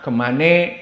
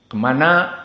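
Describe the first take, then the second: First: It ends in an 'e' vowel, Betawi-style. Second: It ends in an 'a' vowel, Jakarta-style.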